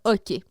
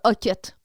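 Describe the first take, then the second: First: The word ends in a vowel, no final T. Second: The word ends with a pronounced T sound. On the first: "On ne sait pas comment le prononcer" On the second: "Moi, je dis hoquette"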